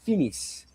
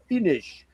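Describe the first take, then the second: First: It is pronounced the way Finnish speakers say it. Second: It is pronounced the American way. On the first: "They say finis" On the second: "like we do in America"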